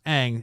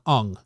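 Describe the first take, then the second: First: The name is said as in the cartoon. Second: The name is said as in the film. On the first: This is how the original show says it. The speaker calls it right. "clearly pronounced Aang" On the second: This is how the film adaptation says it. The speaker calls it wrong. "They call him Ung"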